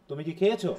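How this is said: The stress falls on the last word. It asks whether the person ate or not. "খেয়েছোর"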